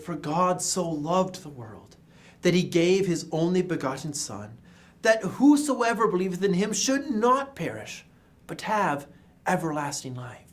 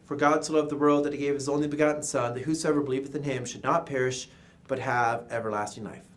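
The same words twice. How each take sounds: First: It is read in a careful, expressive way. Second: It is read in a careless, lazy way.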